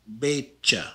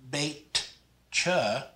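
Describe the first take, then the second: First: The tj is a single ch sound. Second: A distinct T is heard before the ch. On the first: The speaker calls it right. "The T J is pronounced just like a C H in English" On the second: The speaker calls it wrong. "not bait cha. You don't want the T there anymore"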